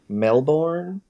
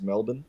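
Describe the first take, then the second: First: It has an American accent with an R sound. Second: It has an Australian accent without an R sound. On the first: This is how Americans would say it. "or as you guys might say" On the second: This is how Australians say it. "We don't pronounce the R. It's just Melbourne"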